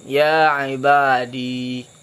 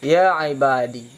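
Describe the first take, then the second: First: The word ends in a long ee sound. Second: The word ends in a short i vowel. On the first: "menyebutkan ya hal keadaannya itu sakin" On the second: "membuangkan ya mutakallim dan memadakan mudhaf munada tersebut dengan kasrah"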